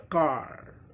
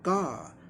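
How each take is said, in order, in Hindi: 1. अंतिम r ध्वनि साफ़ बोली जाती है। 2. अंतिम r ध्वनि साइलेंट होती है। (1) "रॉ का भी उच्चारण होता है अमेरिकन, कहीं आर का रॉ साउंड साइलेंट नहीं होता था" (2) "र का उच्चारण नहीं होता, ब्रिटिश में साइलेंट होता है।"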